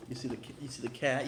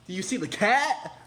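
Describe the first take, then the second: First: Said in the usual way. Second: Higher and much louder, pushing the word cat; loud insistent question. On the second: Real, not acted. Showing viewers the cat print, loud and insistent. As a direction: demand they notice the cat.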